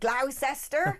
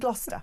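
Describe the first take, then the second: First: The name is said the way a visitor says it. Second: The name is said the way locals say it. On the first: The speaker is not from the area. The speaker calls it wrong. "You can always tell the tourist in Gloucestershire because they'll be like" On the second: The speaker knows the area. The speaker calls it right. "And I know it's"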